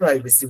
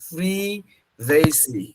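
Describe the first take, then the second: First: The first syllable sounds like 'pry'. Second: The first syllable sounds like 'priv'. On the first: The speaker calls it wrong. "আমরা সবাই এটাকে প্রাইভেসি বলি" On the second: The speaker calls it right. "কিন্তু এটা আসলে নাম হচ্ছে প্রিভেসি।"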